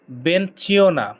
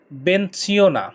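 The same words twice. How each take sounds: The two takes are said the same way.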